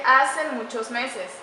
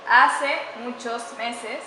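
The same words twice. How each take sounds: First: Slow, deliberate reading of the faulty "hace muchos meses"; wrong example read out. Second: "hace muchos meses" very slow, stressing "hace" with a rise; corrected phrase. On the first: Teacher reading a faulty example to students, slow and deliberate. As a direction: read the wrong phrase slowly for the class. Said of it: "tampoco tiene concordancia". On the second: Teacher modelling the corrected phrase for students, very slow with stress on "hace". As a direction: spell out the correct "hace" slowly and clearly. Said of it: "Debería decir". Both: Shown as a demonstration.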